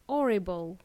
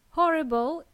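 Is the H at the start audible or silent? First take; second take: silent; audible. First: The word begins without any H sound. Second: The word begins with an audible H. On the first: The speaker calls it wrong. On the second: The speaker calls it right.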